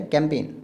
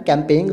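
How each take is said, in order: First: "कैंपेन" ending on a plain N; correct pronunciation. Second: "कैंपेन" ending in a sounded "-eng"; wrong pronunciation. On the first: Teacher showing the silent G, correctly pronounced. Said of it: "जी का sound नहीं आ रहा". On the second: Teacher showing the silent-G mistake, mispronounced. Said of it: "तो नहीं कह रहे". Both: Shown as a demonstration.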